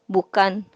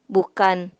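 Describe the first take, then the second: No difference in how they are said.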